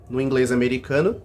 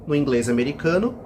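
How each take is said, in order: The two takes are said the same way.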